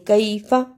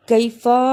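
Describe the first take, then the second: First: कैफ़ा with held ai, short final a; correct reading. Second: कैफ़ा with the final a dragged out; wrong lengthening. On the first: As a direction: cut the last a of कैफ़ा short. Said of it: "बल्कि". (कैफ़ा, आख़िरी अ छोटा रखकर) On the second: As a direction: stretch the last vowel of कैफ़ा. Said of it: "लंबा नहीं करना". (कैफ़ा, आख़िरी आ लंबा खींचकर) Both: Shown as a demonstration.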